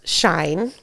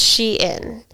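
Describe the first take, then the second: First: The name sounds like the word 'shine'. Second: The name sounds like 'she' followed by 'in'. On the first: The speaker calls it wrong. "So I thought it was s- pronounced Shine" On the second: The speaker calls it right. "but it's Shein"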